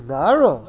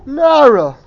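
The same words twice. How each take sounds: First: Nara at ordinary volume, swooping up then dropping; questioning contrast. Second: Loud, high, emphatic Nara; emphatic exclamation. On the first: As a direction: say Nara with a swoop, without the force. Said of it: "Or you could say". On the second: Teacher showing how tone conveys meaning, emphatic exclamation of Nara. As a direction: say Nara big and high, falling away at the end. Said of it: "You could say the word". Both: Shown as a demonstration.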